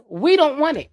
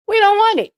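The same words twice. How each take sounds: First: Said in the usual way. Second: Shouted high and loud; the second one a full shout; loud repeat. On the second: Shown as a demonstration. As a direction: yell it back, much higher. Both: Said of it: "repeated louder".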